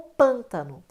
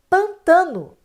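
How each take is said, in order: First: The stress is on the first syllable. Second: The stress is on the second syllable. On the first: This is the form the word became. "Ficou pântano" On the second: This is the older form of the word. "sístole é justamente o recuo para a sílaba anterior"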